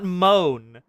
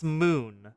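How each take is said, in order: First: The vowel sounds like the one in 'moan'. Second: The vowel sounds like the one in 'moon'. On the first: The speaker calls it wrong. "It's not moan" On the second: The speaker calls it right. "it's moon"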